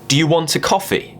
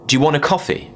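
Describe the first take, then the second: First: Every word is pronounced fully and separately. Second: The words are run together and contracted. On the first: "the correct way of me saying this would be" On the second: "the informal contraction way would be"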